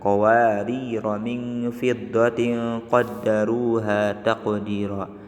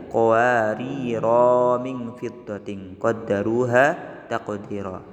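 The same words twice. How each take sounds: First: The final vowel of qawarira is kept short. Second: The final vowel of qawarira is drawn out long. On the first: The speaker calls it right. "Huruf mad tersebut tidak dianggap" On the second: The speaker calls it wrong. "enggak boleh kita baca"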